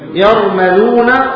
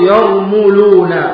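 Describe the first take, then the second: First: The first syllable has the vowel a. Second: The first syllable has the vowel u. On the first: "بالفتح" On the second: "او الضم"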